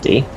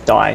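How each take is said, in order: First: The vowel sounds like the word see. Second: The vowel sounds like the word eye. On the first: The speaker calls it wrong. "not D" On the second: The speaker calls it right. "It's Die"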